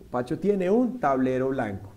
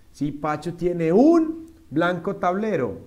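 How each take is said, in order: First: Said in the usual way. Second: "un blanco tablero" slowly and loudly, as the mistake; slow, loud literal translation; wrong word order. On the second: Shown as a demonstration. (orden incorrecto, lento) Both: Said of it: "cómo diríamos bien".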